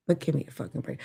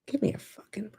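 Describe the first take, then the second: First: Said in the usual way. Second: Whispered, fed-up aside; hiss-free soft whisper of disbelief; exasperated whisper. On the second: Retold or imitated. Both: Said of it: "But now I'm just like".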